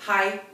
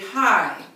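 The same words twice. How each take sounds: First: The vowel is short and clipped. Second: The vowel is drawn out long.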